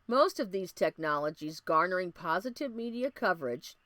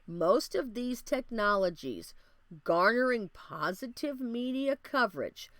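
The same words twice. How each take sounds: First: The phrase is spoken at a normal, quicker pace. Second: The phrase is spoken at a deliberately slower pace.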